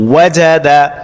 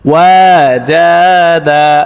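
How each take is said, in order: First: The vowels are said short and quick. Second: The vowels are stretched out long. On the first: The speaker calls it right. "হরকত মানে তাড়াতাড়ি তাড়াতাড়ি পড়তে হবে" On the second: The speaker calls it wrong. "এভাবে টান দিয়ে পড়লে কিন্তু আমাদের পড়াটা শুদ্ধ হবে না"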